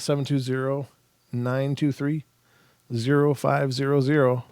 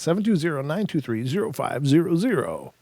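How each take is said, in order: First: It is read in an ordinary speaking voice. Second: It is read in a put-on announcer voice.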